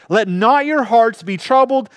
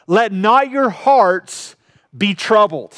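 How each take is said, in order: First: Said in the usual way. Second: Slow scripture quote. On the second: Acted. Preacher quotes Jesus slowly.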